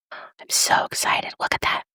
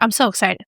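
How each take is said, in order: First: Slow excited whisper; drawn-out thrilled whisper; whispering with glee. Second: Said in the usual way. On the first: Real, not acted. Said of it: "I always whisper when I get excited".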